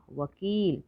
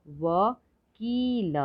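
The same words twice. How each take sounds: First: Said in the usual way. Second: वकील split slowly as व, की, ल; higher, separate beats in वकील; syllable by syllable. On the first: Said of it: "तो शब्द पढ़ते हैं". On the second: Shown as a demonstration. Teacher sounding out वकील for learners, syllable by syllable. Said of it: "थोड़ा ज़्यादा समय लगता है".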